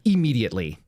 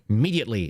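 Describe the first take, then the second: First: Every sound of the word is said clearly. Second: Some sounds are odd or dropped from the word. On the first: The speaker calls it right. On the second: The speaker calls it wrong.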